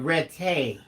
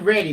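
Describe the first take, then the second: First: "ready" said as "ret-TAY"; deeper-level READY. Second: Said in the usual way. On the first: Shown as a demonstration. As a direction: turn the end of "ready" into a stressed "TAY". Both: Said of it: "Not ready, but ready".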